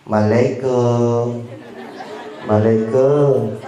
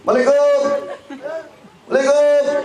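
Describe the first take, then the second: First: Very slow, lingering greeting; imitating a neighbour's leisurely doorstep salam; drawn-out salam. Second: Short, very high-pitched call; imitating a delivery courier calling at the gate; courier's salam. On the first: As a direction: stretch out each syllable of the greeting unhurriedly. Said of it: "Kalau salamnya begini". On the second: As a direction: pipe the greeting out high and quick. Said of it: "Tapi kalau salamnya begini".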